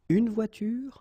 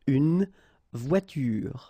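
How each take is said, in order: First: The word ends on the r sound. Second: A vowel sound follows the final r. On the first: The speaker calls it right. "The last thing that you will hear is this r" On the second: The speaker calls it wrong. "so clearly you don't pronounce it une voiture"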